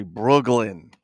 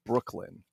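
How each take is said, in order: First: "Brooklyn" with a hard g for the k; heavy Brooklyn accent. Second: Said in the usual way. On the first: Shown as a demonstration. Toy collector showing viewers the local way, "Brooklyn" said "Brooglin". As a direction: say "Brooklyn" as "Brooglin", thick New York accent. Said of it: "you got that heavy accent". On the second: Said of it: "with a K".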